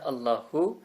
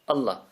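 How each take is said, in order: First: The word ends with a vowel sound. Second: The word ends with a stop. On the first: "there's a vowel at the end" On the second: "a glottal stop at the end, a pause"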